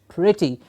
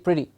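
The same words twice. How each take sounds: First: The word is said slowly with its vowel drawn out. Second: The word is said quickly in one go. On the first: The speaker calls it right. "Break up the word so that this vowel sound jumps up clearly" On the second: The speaker calls it wrong. "If I just say it very clearly and easily and, and fastly"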